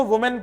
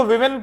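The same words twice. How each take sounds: First: वुमेन said with a rounded "woo" at the start, as in "wuh-men"; teacher demoing singular वुमेन with a rounded "woo"; singular pronunciation. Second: विमेन said with a short "vi" at the start, as in "wi-min"; teacher demoing plural विमेन with a "vi" vowel; plural pronunciation. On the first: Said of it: "में वू होता है". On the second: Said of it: "plural में इसकी pronunciation वी हो जाती". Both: Shown as a demonstration.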